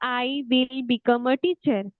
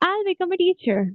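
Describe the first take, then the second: First: 'Will' is said as a full separate word. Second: 'Will' is shortened and joined to 'I'. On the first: "हम ऐसा बोलेंगे" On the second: "दूसरे वे से, ज्यादा अच्छा sound कर रहा है, फ्लुएंट साउंड कर रहा है"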